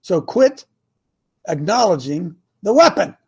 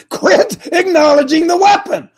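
First: Said in the usual way. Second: High, loud, insistent command; emphatic exhortation. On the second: Real, not acted. Preacher urging listeners to quit repeating bad thoughts, emphatic exhortation. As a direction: drive the order home with raised pitch and force.

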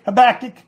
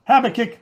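First: "Habakkuk" stressed on BAK; second-syllable stress. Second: "Habakkuk" stressed on HAB; first-syllable stress. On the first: Preacher tries the prophet's name, "Habakkuk" with stress on BAK. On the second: Preacher tries the prophet's name, "Habakkuk" with stress on HAB. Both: Shown as a demonstration.

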